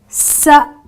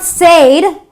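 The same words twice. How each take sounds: First: The vowel is a short 'eh' sound. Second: The vowel is a long 'ay' sound. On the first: The speaker calls it right. "the short E vowel sound" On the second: The speaker calls it wrong. "it's not said"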